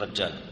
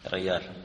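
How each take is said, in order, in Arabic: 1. الحرف الأوسط يُنطق j. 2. الحرف الأوسط يُنطق y. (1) "لهجة النجدية يقول رجال" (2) "نحن نقول سعود ريال"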